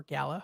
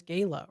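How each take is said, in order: First: "gala" said GAL-uh; "gala" with first syllable like "gal"; short-A gala. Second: "Gala" said GAY-luh; "Gala" with first syllable like "gay"; long-A gala. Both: Shown as a demonstration. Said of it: "or gala, however you pronounce it".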